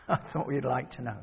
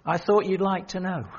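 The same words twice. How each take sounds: First: Amused murmur; softly laughing. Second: Said in the usual way. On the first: Real, not acted. Preacher repeats the line to the congregation, laughing softly. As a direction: say it again through a soft chuckle, quieter. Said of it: "laughs, I thought you'd like to know". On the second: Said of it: "laugh on the repeat".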